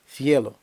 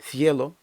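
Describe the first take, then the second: Both takes have the same delivery.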